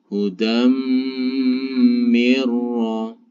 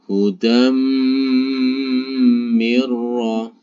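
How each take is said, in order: The two takes are said the same way.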